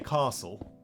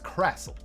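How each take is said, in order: First: The first vowel is long, like in car. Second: The first vowel is short, like in cat. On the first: "in the South African accent we say castle. Almost like car, sill, but without the R" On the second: "the B-dubs dialect, it's crassle"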